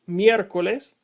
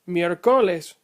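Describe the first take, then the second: First: The stress falls on the first syllable. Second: The stress falls on a later syllable. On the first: The speaker calls it right. "The following examples are pronounced" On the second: The speaker calls it wrong. "If the accent mark were not written, you would pronounce miércoles like"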